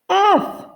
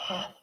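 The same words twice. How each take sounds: First: The letter name is shouted loudly. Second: The letter name is whispered softly. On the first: "shout it" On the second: "Whisper it"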